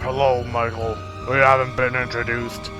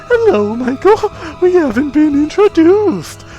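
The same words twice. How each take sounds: First: It is said in a normal voice. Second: It is said in a clown voice.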